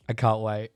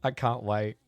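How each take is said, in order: First: "can't" punched louder in "I can't wait"; eager emphasis. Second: Said in the usual way. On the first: Shown as a demonstration. Streamer to chat about hearing the new album, louder "can't". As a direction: hit "can't" hard, eager.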